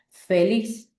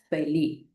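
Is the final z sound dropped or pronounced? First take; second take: pronounced; dropped. First: The final z sound is pronounced. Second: The final z sound is dropped. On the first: "La palabra correcta es feliz" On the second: "puede ser pronunciada como feliz"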